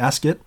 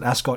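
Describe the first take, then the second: First: The ending sounds like the end of biscuit. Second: The ending does not sound like biscuit's ending. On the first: This is how it is said in England. The speaker calls it right. "it's definitely Ascot, like biscuit" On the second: This is how it is said in Australia. The speaker calls it wrong. "I think we all pronounce it Ascot in Australia"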